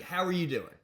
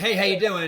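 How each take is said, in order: First: It sounds like a genuinely caring question. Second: It sounds like a quick, automatic greeting.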